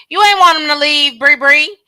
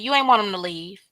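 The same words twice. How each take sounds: First: "You ain't want him to leave" called out loud; talking to Bree Bree, a louder scolding call-out. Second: Said in the usual way. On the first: Real, not acted. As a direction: repeat it louder and higher, calling her out. Repeated louder, calling her out.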